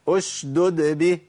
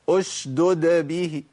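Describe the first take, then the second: Both takes have the same delivery.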